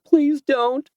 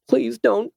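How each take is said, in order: First: Even higher, louder, near-breaking plea; desperate begging. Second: High frightened plea; begging. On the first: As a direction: beg with rising panic. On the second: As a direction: beg him to stop, voice rising. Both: Acted. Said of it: "she begged him".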